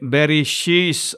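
It has sh then a final s sound. "లేకపోతే బెరిషీస్ అనేవారు"

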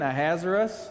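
The name is said with an American accent. "Say it more American"

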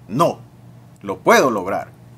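There is a pause after the first word. The speaker denies something and says they can achieve it. "el silencio y la pausa te dan un significado diferente a la frase"

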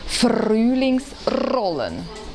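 The R is rolled with the tongue tip. "Spanisch Sprechende rollen das R"

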